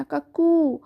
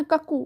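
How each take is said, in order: First: কাকু with a long, held final উ; drawn-out oo. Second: কাকু with a short, quick final উ; short vowel demo. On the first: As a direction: stretch the end of কাকু, "kuk-kooo". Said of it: "একটু উ করে আমরা একটু টানবো". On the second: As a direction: cut the end of কাকু short, no stretch. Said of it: "এমনি না". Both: Shown as a demonstration.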